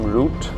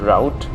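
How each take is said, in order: First: It is said in a non-American way. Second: It is said the American way.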